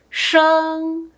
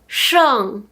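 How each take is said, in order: First: The pitch stays high and level. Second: The pitch falls sharply from high to low.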